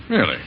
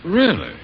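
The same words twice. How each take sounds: First: Said in the usual way. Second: Sudden high, startled "Really?"; a quick startled double take; surprised. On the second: Acted. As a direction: jump up in pitch, caught off guard. Doubtful reaction to nurse news.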